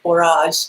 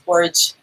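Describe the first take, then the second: First: The word ends rhyming with 'garage'. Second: The word ends not rhyming with 'garage'. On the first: It reflects a Cajun French influence. "I want to call it borage, like garage" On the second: It is the common dictionary pronunciation. "everybody says borage, and that's what the dictionary says too"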